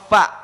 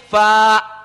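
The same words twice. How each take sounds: First: The vowel is said short. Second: The vowel is drawn out long. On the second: "berarti kita panjangkan, tambah alif"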